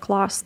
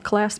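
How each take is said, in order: First: The word is said with a British vowel. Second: The word is said with an American vowel.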